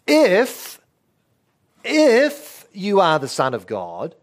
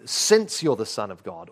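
First: "If" punched high and loud, then a pause; stress on IF. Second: Said in the usual way. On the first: Shown as a demonstration. Preacher showing a doubting devil's reading, stress on "If". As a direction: hit the word "If" hard, challenging. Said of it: "where you put the stress". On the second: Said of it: "translate the word if as since".

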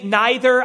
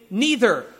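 First: "neither" with a long I, like eye, in the first syllable; NY-ther pronunciation. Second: "neither" with a long E in the first syllable; first vowel of "neither" rhymes with "see"; NEE-ther pronunciation. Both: Shown as a demonstration. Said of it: "different ways in which some of us pronounce words".

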